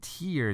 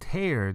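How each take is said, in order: First: The vowel sounds like the word 'ear'. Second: The vowel sounds like the word 'air'. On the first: It means a drop from the eye. "如果念tear 的话，它是眼泪的意思" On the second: It means to rip something apart. "如果念tear 的话，它是撕"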